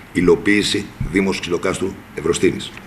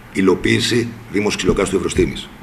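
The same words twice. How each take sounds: Both takes have the same delivery.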